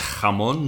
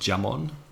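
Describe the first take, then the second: First: It begins with a throaty, rasping 'h' sound. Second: It begins with a 'dj' sound like 'jam'. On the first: The speaker calls it right. "It's jamón" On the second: The speaker calls it wrong. "not jamón"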